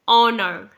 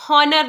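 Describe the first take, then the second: First: It begins with a vowel, no h sound. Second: It begins with an audible h sound. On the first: The speaker calls it right. "एच यहां पर silent है" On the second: The speaker calls it wrong. "ये हॉनर नहीं है"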